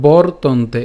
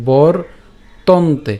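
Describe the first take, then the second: First: "বর্তন্তে" slow but connected, bor-ton-te; joined-up pronunciation. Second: "বর তন্তে" with a gap after bor; broken-down pronunciation. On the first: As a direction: say "বর্তন্তে" as one drawn-out word. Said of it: "উচ্চারণ করার সময় একসাথে উচ্চারণ করব". ("বর্তন্তে" ধীরে একসাথে উচ্চারণ) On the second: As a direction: break it into "বর", pause, "তন্তে". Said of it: "উচ্চারণ সুবিধার জন্য আমি just একটু দেখাচ্ছি". ("বর তন্তে" ভেঙে থেমে উচ্চারণ) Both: Shown as a demonstration.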